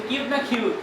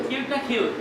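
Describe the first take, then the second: Both takes have the same delivery.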